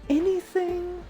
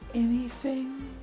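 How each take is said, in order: First: It is said in a higher-pitched girl voice. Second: It is said in a low-pitched tone. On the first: "if I could go a little higher" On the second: "Just a, a low tone"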